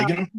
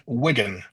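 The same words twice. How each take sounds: First: "Wigan" with a long i, as WHY-gun; wrong long-i "Wigan", like "why"; mispronounced Wigan. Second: "Wigan" with a short i, as in wig; short first vowel in "Wigan"; correct Wigan pronunciation. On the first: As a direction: say "Wigan" to rhyme with tiger's first vowel. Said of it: "as I heard a couple of people say". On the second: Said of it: "It's not Wigan". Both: Shown as a demonstration.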